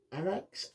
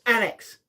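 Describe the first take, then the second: First: Annex? asked softly with a rising, questioning tune; quiet uncertain "Annex?" rising at the end; unsure question. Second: Sudden recognition. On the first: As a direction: try out "Annex?" as a tentative guess. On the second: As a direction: land on "Annex!" as the answer finally clicks. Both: Real, not acted. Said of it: "That's it, the Annex".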